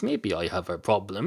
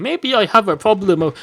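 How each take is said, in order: First: Said in the usual way. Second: Higher and louder, worked up; louder realization. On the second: Acted. Cat realizing its beer problem, higher and louder. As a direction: blurt it out as a sudden realization.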